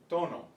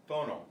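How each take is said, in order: No difference in how they are said.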